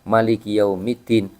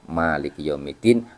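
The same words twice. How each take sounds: First: The vowel after the m is short. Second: The vowel after the m is long.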